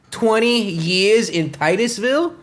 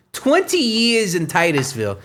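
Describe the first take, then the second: First: Slow, rising disbelief; incredulous question. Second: Said in the usual way. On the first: Real, not acted. Host mocking the chief's twenty-year climb, slow incredulous rise. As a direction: drag it out in disbelief. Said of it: "repeats in disbelief". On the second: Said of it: "repeated as flat statement".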